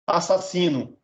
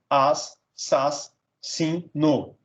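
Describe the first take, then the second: First: Said in the usual way. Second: "as", "sas", "sin", "no" as separate beats; split into syllables. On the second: Shown as a demonstration. Teacher dividing assassino, "as, sas, sin, no" syllable by syllable. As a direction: break the word after each syllable, "as, sas, sin, no". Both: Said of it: "separar um em cada sílaba".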